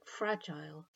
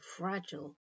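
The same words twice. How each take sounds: First: The ending rhymes with mile. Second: The ending is short, like in bottle. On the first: "end with a sound that rhymes with mile" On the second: "the ending is much shorter, like the end of bottle"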